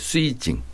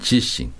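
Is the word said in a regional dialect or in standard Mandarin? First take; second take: regional dialect; standard Mandarin. First: It is said in a regional dialect, like 'ssuijing'. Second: It is said in standard Mandarin, like 'jixing'. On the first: "이 동백지방에 가면 이거를 쓰이징 그랬어요" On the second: "이게 이제 표준어예요"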